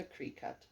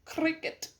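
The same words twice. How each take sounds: First: "Cricut" said kree-cut, long ee then cut; "Cricut" wrongly said as kree-cut; mispronounced brand name. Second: "Cricut" said krick-it, short i, like cricket; "Cricut" said properly as krick-it; correct pronunciation. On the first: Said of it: "Just kidding, Cricut". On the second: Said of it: "It is a Cricut". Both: Shown as a demonstration.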